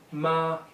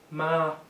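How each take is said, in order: First: The pitch stays high and level. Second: The same.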